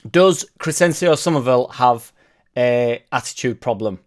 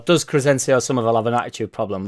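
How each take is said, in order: First: The question is said slowly and haltingly. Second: The question is said at a normal pace. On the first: "I only said that slowly" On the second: "normally I'd go"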